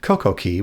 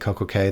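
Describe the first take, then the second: First: The last word sounds like 'key'. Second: The last word rhymes with 'day'. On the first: "Key is the proper pronunciation for these islands" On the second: "perfect day at Coco Cay, that rhymes"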